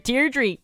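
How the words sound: It is said in a Liverpool Scouse accent.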